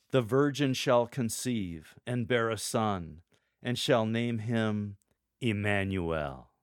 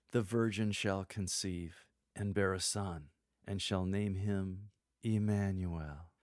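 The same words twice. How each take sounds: First: Slow, louder, full of power; bold and authoritative. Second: Slow, intimate, gently softer; soft and tender. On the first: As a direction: proclaim it with authority. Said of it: "a tone of voice evoking power and authority". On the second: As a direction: tell it tenderly, close to the mic. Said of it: "The second is soft, intimate, and tender". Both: Shown as a demonstration.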